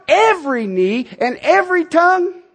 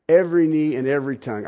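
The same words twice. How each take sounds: First: "Every" lifted high, each word weighted; emphatic repeat. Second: "Every knee and every tongue" tossed off lower and fast; quick aside. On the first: Preacher drives home "Every knee and every tongue", high and emphatic. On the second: Preacher repeats "Every knee and every tongue" lower and fast, as an aside. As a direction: murmur it quickly to yourself. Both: Shown as a demonstration.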